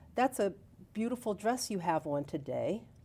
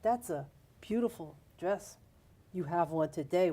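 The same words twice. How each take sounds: First: It sounds like an innocent, plain compliment. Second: It sounds leering and suggestive, not innocent.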